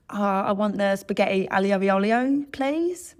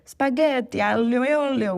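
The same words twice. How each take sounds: First: Anglicised Italian dish name with a rising, questioning end; non-Italian accent. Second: Loud, high, hammed-up Italian accent; over-the-top Italian accent, sung out high and loud; full-on Italian accent. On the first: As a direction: order in a hammed-up English-speaker's accent, no Italian. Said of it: "that sort of spectrum of accent". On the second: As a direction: give it your best Italian impersonation. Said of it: "with a full-on accent". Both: Shown as a demonstration.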